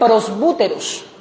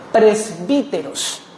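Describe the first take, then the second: First: The vowel after 'presb-' sounds like 'u'. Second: The vowel after 'presb-' sounds like 'i'. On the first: "se lee prosbúteros" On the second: "se pronuncia como I"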